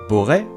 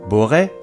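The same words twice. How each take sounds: Both takes have the same delivery.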